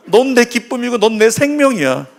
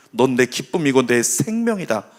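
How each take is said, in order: First: High, emphatic affirmation; lifted, insistent words of love; Jesus. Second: Low-key tender declaration; quiet, lightly acted reassurance; Jesus. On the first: Acted. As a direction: declare it high to draw an amen. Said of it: "예수님 뭐라고요?". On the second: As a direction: affirm it lower, settling down at the end. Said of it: "우리 예수님은 이렇게 말씀하시는 거예요".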